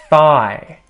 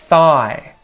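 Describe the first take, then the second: No difference in how they are said.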